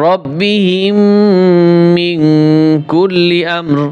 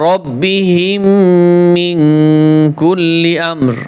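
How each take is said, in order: Both takes have the same delivery.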